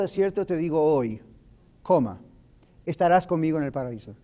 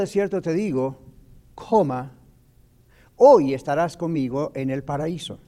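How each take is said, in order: First: The pause comes after the word hoy. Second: The pause comes before the word hoy.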